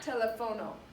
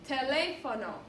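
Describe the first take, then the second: First: The stress is on the third syllable. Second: The stress is on the second syllable. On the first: The speaker calls it wrong. "without the accent mark, it would be telefono. But it's not telefono" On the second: The speaker calls it right. "The accent mark tells you where to stress this vowel"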